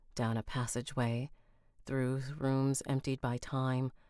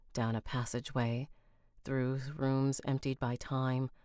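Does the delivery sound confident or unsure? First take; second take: unsure; unsure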